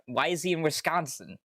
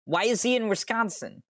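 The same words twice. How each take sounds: First: A mildly raised, puzzled ask; puzzled question. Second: Much higher, louder disbelieving cry; incredulous squeal. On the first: Streamer puzzling over Trent being in Wisconsin, mildly baffled. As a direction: wonder aloud why he's there. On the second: Streamer repeating the question about Trent, now high and incredulous. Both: Real, not acted.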